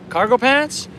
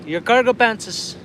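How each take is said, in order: First: High, loud questioning echo; puzzled, pitch leaping up on "pants"; baffled. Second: Put-on high, slow northern Manitoba native accent; retold friend's thick native Canadian accent, pitched up; thick reserve accent. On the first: Retold or imitated. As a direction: retell it as an incredulous question. Baffled reply to friend's odd wording. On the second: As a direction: repeat it slowly in an imitated reserve accent. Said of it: "they got thick accents".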